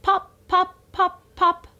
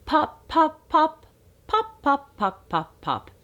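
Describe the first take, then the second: First: High, punchy pop pop; bubble-popping play voice; playful popping. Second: High pops falling back to usual pitch; playful popping again. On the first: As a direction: pop each P crisply for the baby. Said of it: "practice the P sound". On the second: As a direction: pop pop with a changing tune. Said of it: "Say it again". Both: Shown as a demonstration.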